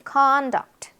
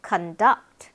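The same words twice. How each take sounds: First: "conduct" as slow CON-duct; stress on first syllable. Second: "conduct" as kun-DUCT; stress on second syllable. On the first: Teacher models the noun, "conduct" stressed on CON. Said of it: "앞에 강세가 있는 거". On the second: Teacher contrasts the verb, "conduct" stressed on DUCT. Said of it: "뒤에 강세가 있습니다". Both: Shown as a demonstration.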